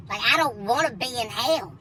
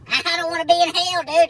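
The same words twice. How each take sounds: First: Said in the usual way. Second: Higher, laughing through the words; amused disbelief. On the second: Real, not acted. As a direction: crack up while repeating it. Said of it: "repeat, laughing".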